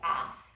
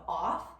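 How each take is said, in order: First: The vowel is raised and nasal, Wisconsin-style. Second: The vowel is flat and even.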